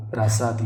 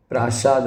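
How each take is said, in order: First: प्रासाद said as "praasaad" with a plain s; correct form. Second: प्रासाद said as "praashaad" with a sh sound; wrong form. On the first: Teacher gives the correct form, प्रासाद with a plain s. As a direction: say प्रासाद with a clean s. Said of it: "ये सही होगा". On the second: Teacher reads the misspelling, प्रासाद with a sh sound. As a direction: say प्रासाद with sh in the middle. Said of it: "प्रासाद नहीं होगा". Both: Shown as a demonstration.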